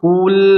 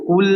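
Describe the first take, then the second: First: An extra vowel sound follows the final consonant. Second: It ends cleanly on the consonant, lips only rounding. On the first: The speaker calls it wrong. "menambah harokat. Kul salah ya" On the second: The speaker calls it right. "Tapi hanya isyarat saja isyarat ya"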